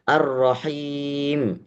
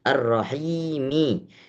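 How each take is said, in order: First: The word ends on a bare final m. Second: The word ends with a short final i vowel. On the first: The reciter stops at this word. "karena kita wakaf, maka huruf mim yang terakhir menjadi sukun" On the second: The reciter continues without stopping. "padahal tulisannya Ar-Rahimi"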